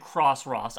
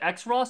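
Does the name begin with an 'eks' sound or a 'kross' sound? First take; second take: kross; eks. First: It begins with 'kross', then 'ross'. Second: It begins with the letter name 'eks', then 'ross'. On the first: "or I'll pronounce it Cross-Ross" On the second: "I will either pronounce it X-Ross"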